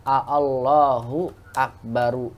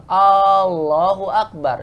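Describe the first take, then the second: First: "A Allahu Akbaru" with two separate opening vowels; unmerged original form. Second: "Allahu Akbar" slowly, opening A held long; lengthened first vowel. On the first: Teacher showing the underlying sentence, "A Allahu Akbaru" unmerged. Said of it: "asal kalimatnya A Allahu Akbaru". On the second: Teacher showing the merged form, "Allahu Akbar" with stretched A. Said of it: "jadilah panjang". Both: Shown as a demonstration.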